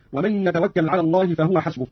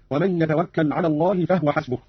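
First: Said in the usual way. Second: فهو said "fahwa", no vowel on the h; silent-vowel ha. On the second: Shown as a demonstration. Teacher demonstrating Qalun, فهو with vowelless h, "fahwa". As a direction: close the h in فهو straight onto w. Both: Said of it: "أسكن قانون الهاء".

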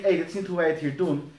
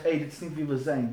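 First: Quick scolding "hé, hey, dit is niet hoe wij het hier doen", brisk; snappy rebuke. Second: Softer, lower "hé, hey, dit is niet wie we zijn"; gentle reminder. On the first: Leader scolding a lax volunteer, quick and sharp. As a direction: rattle off a reproach. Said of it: "Dan zeg je niet". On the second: Leader gently reminding a lax volunteer, softer and lower. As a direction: remind them kindly who we are. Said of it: "Je zegt". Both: Shown as a demonstration.

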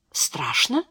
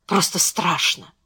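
First: Soft, rising surprised question on «Страшно». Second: Said in the usual way. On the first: A narrator's reading. Hil questions what Beatriz just said, surprised. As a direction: ask «Страшно?» in hushed surprise, pitch lifting at the end. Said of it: "удивлённо спросил Хиль".

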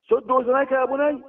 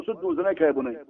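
First: Urgent warning. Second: Said in the usual way. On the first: Retold or imitated. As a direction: repeat the warning to your son with force. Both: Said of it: "قال له".

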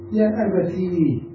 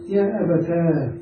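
First: "يا أبتي" with the last ee drawn out; long ya after ta. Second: "يا أبتا" with the last aa drawn out; long alif after ta. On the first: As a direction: slowly say abatee, stretching the end of "أبتي". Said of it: "ثم إعادة الياء مرة ثانية". (نطق "أبتي" بإعادة الياء ممدودة) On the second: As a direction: say abataa, stretching the end of "أبتا". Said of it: "أو إعادة الألف". (نطق "أبتا" بإعادة الألف ممدودة) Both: Shown as a demonstration.

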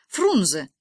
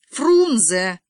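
First: Short, louder announcement; exclaimed answer. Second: Фрунзе drawn out, loud and raised; emphatic repeat. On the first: Boy blurts out the capital to classmates, exclaiming. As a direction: call out Фрунзе in one quick burst. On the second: Boy repeats the name for a puzzled girl, emphatic. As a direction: stretch Фрунзе out forcefully. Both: A narrator's reading.

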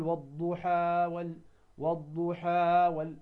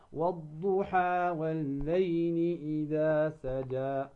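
First: والضحى with the final vowel dragged too long; wrong overlong madd. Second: Slow recitation with two-beat madd; correct recitation. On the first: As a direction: overstretch والضحى to show the error. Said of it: "هذا خطأ". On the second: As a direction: recite والضحى holding only two counts. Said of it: "فقط بمقدار ماذا؟ حركتين". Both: Shown as a demonstration.

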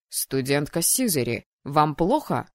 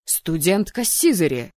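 First: Low, restrained voice of a dean; lightly voiced low official; stern dean's inquiry. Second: Loud roar of an angry dean; stern, loud call to order. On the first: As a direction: question a student with cool authority. Dean questions the howling student. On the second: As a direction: bellow the student's name in reprimand. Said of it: "взревел декан". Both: A narrator's reading.

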